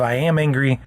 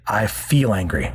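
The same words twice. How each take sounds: First: "am" leaned on as the key word; the identity version, "am" stressed. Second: "feel" stressed, a bit lower and slower; the better wording, stress on "feel". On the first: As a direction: put the weight on "am" in "I am angry". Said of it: "So instead of". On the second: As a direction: lean on "feel" to correct the phrase. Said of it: "that's an important distinction". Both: Shown as a demonstration.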